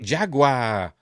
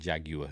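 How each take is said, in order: First: The word is pronounced the American way. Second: The word is pronounced the British way.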